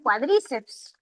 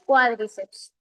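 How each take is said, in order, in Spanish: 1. La acentuación recae en una sílaba posterior. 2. La acentuación recae en la primera sílaba. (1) "A veces los estudiantes pronuncian cuádriceps" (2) "La pronunciación es cuádriceps. Como es esdrújula"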